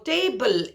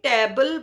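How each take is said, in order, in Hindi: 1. पहला स्वर 'ay' की तरह ग्लाइड करता है। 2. पहला स्वर एक छोटी सपाट ध्वनि है। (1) "जबकि वो टेबल" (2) "टेबल बोलेंगे"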